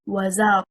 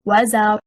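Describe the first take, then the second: First: The stress is on the second syllable. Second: The stress is on the first syllable. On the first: It becomes a conjunction plus a verb. The speaker calls it wrong. "The incorrect performance, stressing on حركة الزاي" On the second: It is a single word. The speaker calls it right. "The correct performance is وَزَرْ. Stressing on حركة الواو is one word"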